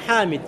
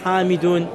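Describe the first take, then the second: First: The name ends bare on the d sound. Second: The name ends with a full -un case ending. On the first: The usual pause form drops the case ending. "Normalement, wa min aina Hamid" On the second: The grammatical case ending is pronounced in full. "ils apprennent à apprendre à dire Hamidoun"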